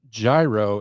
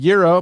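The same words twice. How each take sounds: First: Gyro is said the Midwest way. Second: Gyro is said the usual, non-Midwest way.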